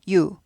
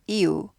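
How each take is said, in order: First: The vowels merge into one quick gliding syllable. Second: Two separate vowel sounds take two beats. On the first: "합쳐서 유가 되잖아요. 반박자예요" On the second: "이우 하면 두 박자인데"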